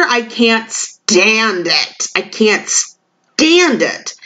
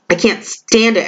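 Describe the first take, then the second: First: Each word drawn out slowly; slow way down and lean on every word of I can't stand it; slow emphatic. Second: Said in the usual way. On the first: Acted. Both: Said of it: "that energy that females have".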